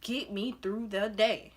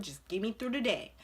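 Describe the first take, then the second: First: "Get me through the day" drawn out word by word; slow emphatic plea. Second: Said in the usual way. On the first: Retold or imitated. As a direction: spell out the plea slowly, each word weighted. Plea repeated slowly for emphasis.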